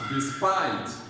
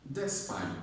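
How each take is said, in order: First: The stress is on the second syllable. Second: The stress is on the first syllable. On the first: The speaker calls it right. "The stress is on spite" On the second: The speaker calls it wrong. "not despite"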